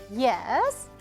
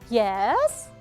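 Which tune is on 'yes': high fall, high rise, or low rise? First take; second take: low rise; low rise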